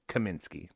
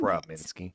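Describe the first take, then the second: First: The name begins with a plain 'ka' sound. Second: The name begins with a 'kra' sound. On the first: The speaker calls it right. "Kaminsky, not" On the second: The speaker calls it wrong. "you said it wrong"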